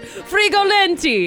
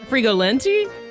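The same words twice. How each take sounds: First: It is said with an Italian accent. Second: It is said in a plain, unaccented voice.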